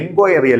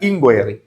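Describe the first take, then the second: First: The word begins with an 'en' sound. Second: The word begins with an 'in' sound. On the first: The speaker calls it wrong. "എൻക്വയറി അല്ല" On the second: The speaker calls it right.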